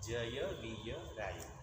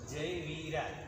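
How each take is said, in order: First: The 'ya' sound after 'vi' is pronounced. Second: The 'ya' sound after 'vi' is dropped. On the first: The speaker calls it right. "આમાં ત્રણ ય છે" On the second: The speaker calls it wrong. "આવું બોલીએ છીએ આપણે"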